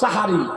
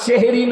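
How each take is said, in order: First: The word begins with an 'a' vowel. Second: The word begins with an 'e' vowel. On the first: The speaker calls it right. "শব্দটা হলো সাহারি" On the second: The speaker calls it wrong. "শব্দটা সেহেরি না"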